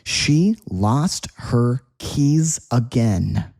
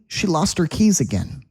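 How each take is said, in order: First: The sentence is said at a slow pace. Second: The sentence is said at a fast pace.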